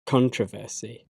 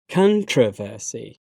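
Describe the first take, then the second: First: "controversy" as CON-tro-ver-see, stress on the first syllable; American pronunciation. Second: "controversy" as con-TROV-er-see, stress on the second syllable; British pronunciation. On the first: Teacher trying the American form, American pronunciation. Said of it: "my American pronunciation". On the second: Teacher reading the British form of each pair, British pronunciation. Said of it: "I'm a British English native speaker". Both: Shown as a demonstration.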